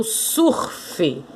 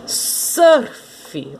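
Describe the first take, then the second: First: Surf said slowly as "sur-fi", with an u vowel; Portuguese pronunciation. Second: Surf drawn out with an English er vowel, ending in fi; English-style pronunciation. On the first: Teacher offering two ways to say it, surf as Portuguese sur-fi. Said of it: "O R fica junto com o su". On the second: Teacher offering two ways to say it, Surf as English-style ser-fi. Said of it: "Surf ou surf". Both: Shown as a demonstration.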